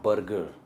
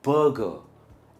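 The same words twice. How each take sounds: First: The R sound is pronounced. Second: The R sound is silent. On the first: The speaker calls it wrong. "And not बर्गर" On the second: The speaker calls it right. "Again आर is silent"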